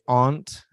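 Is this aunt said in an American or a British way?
British. It is said with a British pronunciation. "she would say aunt"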